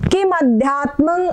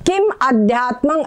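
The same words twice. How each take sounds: First: The two words are run together as one. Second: The two words are said as separate words.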